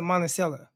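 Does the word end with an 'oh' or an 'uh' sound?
uh. The word ends with an 'uh' sound. This is how the locals say it. "they end it with an A. So they call it Monticello"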